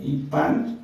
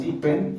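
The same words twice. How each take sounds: First: "Ipan" with an a in the second syllable; "Ipan" as the correct form, clear a; corrected pronunciation. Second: "Ipen" with an e in the second syllable; "Ipen" as the mistaken form, e for a; mispronunciation shown. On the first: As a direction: say "Ipan", ending in -pan. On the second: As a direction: say "Ipen", ending in -pen. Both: Shown as a demonstration. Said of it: "Ipan no es Ipen".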